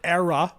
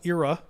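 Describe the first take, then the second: First: It is said the West Coast way. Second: It is said the East Coast way.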